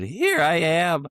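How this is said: The voice cracks mid-phrase.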